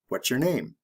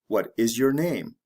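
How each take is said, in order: First: It is said fast with words run together. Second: Each word is said slowly and separately.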